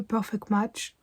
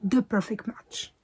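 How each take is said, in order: First: "Perfect Match" said the French way, flat French vowels; a clumsy Frenglish "Perfect Match"; franglais. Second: "The Perfect Match" slower, in careful English; better English. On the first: Booktuber mocking her own bad English, Frenglish. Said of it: "Oh là, je l'ai dit, mais avec un franglais". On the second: Booktuber correcting her franglais, careful English. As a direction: slowly redo "The Perfect Match" in proper English. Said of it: "C'est mieux que The Perfect Match, n'est-ce pas?". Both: Shown as a demonstration.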